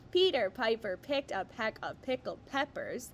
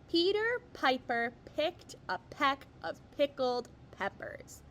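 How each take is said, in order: First: It is read at a faster pace. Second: It is read at a normal, slower pace.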